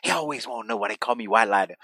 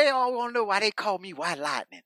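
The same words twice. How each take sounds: First: Hammed-up wrestler boast, lower. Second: Higher mock promo voice; hammed-up wrestler boast, higher. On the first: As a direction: lower mock promo voice. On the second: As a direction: pitch it up like a cocky promo. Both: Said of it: "He goes, he goes".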